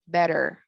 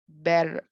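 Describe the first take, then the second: First: The middle t sounds like a soft d. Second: The middle t sounds like a soft d.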